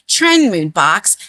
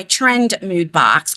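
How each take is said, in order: First: Slow, careful "Trend Mood box"; deliberately slower. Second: Said in the usual way. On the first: Shown as a demonstration. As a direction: say "Trend Mood box" slowly so every word lands. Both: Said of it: "I have to say it slower".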